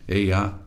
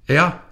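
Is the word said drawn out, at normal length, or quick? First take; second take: normal; quick. First: It is said at an ordinary length. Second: It is said very quickly, like a bark.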